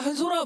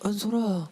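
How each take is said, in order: First: It is said in a casual, offhand tone. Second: It is said in a soft, pitying tone. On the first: The person is treated as an ordinary friend. "어제까진 야 한솔아 뭐 어쩌고 저쩌고" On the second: The person is seen as someone to feel sorry for. "약간 이런 뭔가 안타까운"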